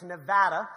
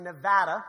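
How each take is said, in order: First: The middle vowel sounds like the 'a' in 'cat'. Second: The same.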